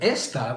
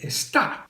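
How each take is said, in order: First: The stress is on the first syllable. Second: The stress is on the last syllable. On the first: The speaker calls it wrong. "Instead of esta" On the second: The speaker calls it right. "we want it to say está. We'll put an accent mark over that A"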